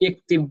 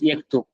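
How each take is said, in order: First: It is said with Syrian dialect vowels, iktib. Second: It is said with Standard Arabic vowels, yaktub. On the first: This is how it is said in Syria. "शाम में सीरिया के अंदर जो है यक्तुब को कोई इक्तिब भी कह सकता" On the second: This is the formal written form. "Would be pronounced as यक्तुब इन मॉडर्न स्टैंडर्ड"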